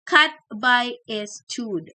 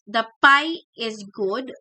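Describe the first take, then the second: First: Several consonants are swapped for other sounds. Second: The consonants are produced as in normal speech. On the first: This shows a phonological disorder. "if you have phonological disorder" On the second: This is the sentence the child intends. "what is um the child trying to say is"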